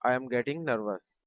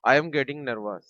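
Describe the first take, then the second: First: Slow repeat. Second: Said in the usual way. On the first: Shown as a demonstration. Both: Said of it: "teacher says then repeats slowly".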